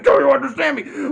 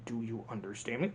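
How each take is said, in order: First: Much higher, louder yell; villain losing his temper at his brother; shouted repeat. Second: Low, soft threat; villain quietly warning his brother; quiet menacing question. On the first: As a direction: scream the question the second time. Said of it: "I said". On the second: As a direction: ask it low and cold. Hopper's first quiet demand. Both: Retold or imitated.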